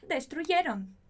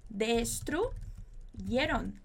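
First: Said in the usual way. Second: Destruyeron, very slow, each syllable drawn out. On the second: Shown as a demonstration. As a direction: spell Destruyeron out slowly for the class. (Destruyeron bem devagar, sílaba por sílaba) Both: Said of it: "Muy bien".

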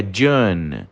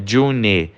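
First: "June" with the vowel gliding slightly, like "Joon"; correct June. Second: June with a flat, unglided vowel, "June" as in "Junee"; wrong June. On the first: Teacher showing students the right June, vowel gliding slightly. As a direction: let the vowel in "June" slide a little. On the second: Teacher showing the wrong way to say June, flat vowel. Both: Shown as a demonstration. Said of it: "ele dá uma leve deslizada no som".

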